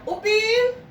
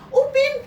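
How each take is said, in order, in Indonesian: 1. Dipanggil dengan nada rendah dan sabar. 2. Dipanggil dengan nada tinggi dan marah. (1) "Dari nadanya rendah" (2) "mamanya tambah tinggi lagi"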